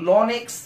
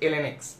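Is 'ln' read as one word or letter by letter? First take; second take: one word; letter by letter. First: The ln is said as one syllable, lon. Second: The ln is said as two letters, el-en. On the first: The speaker calls it wrong. "লন x বলাটা আসলে একটু ভুল শোনায় এবং এটা আসলে ভুল" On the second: The speaker calls it right. "সঠিকটা হচ্ছে ln x"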